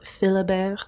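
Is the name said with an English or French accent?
French. The name is said with a French accent.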